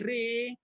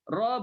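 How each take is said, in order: First: The vowel is tilted toward an e sound. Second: The vowel is an open a sound.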